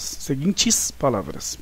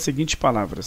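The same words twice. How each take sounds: First: Slow "Seguintes" with a clear final s; softer, slow correction on "Seguintes"; corrective emphasis. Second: Said in the usual way. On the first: Real, not acted. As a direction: stretch "Seguintes" and sound its plural ending. Teacher corrects the dropped plural s.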